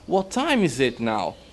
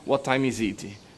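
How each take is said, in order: First: The pitch goes up and down. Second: The pitch stays flat and level.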